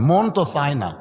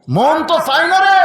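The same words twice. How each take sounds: First: Said in the usual way. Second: A lightly voiced reluctant father; pleading father. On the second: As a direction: stretch the রে into a plaintive whine.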